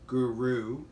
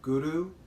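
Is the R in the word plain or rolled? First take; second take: plain; rolled. First: The R is plain, not rolled. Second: The R is rolled with the tongue tip. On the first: This is how people say it in everyday speech. "Most people pronounce it like that because that's the vernacular" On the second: This is how it is said when chanting the mantra. "use the tip of your tongue to the back of your teeth and to roll the R a bit"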